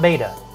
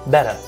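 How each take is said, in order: First: The first vowel sounds like the vowel in bait. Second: The first vowel sounds like the vowel in bet. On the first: The speaker calls it wrong. "not beta" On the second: The speaker calls it right. "it is betta"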